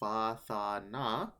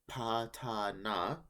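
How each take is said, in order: First: The first syllables begin with f and th sounds. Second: The first syllables begin with p and t sounds. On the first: This is the current church pronunciation. "current pronunciation, or uh, church pronunciation" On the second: This is the old pronunciation. "Old pronunciation"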